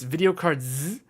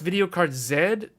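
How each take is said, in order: First: The final letter is said the American way. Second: The final letter is said the non-American way. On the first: This is how people in the USA say it. "or it's" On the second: This is how people outside the USA say it. "for people outside of the U S A"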